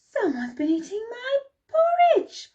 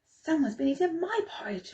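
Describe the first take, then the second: First: It is said in a great big voice. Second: It is said in a medium voice. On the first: "bellowed in his great big voice" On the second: "cried in her medium voice"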